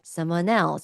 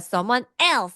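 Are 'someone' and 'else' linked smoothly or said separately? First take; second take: linked; separate. First: The N of 'someone' links smoothly into 'else'. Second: The two words are said separately without linking. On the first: The speaker calls it right. "부드럽게" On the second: The speaker calls it wrong. "someone else 아니에요"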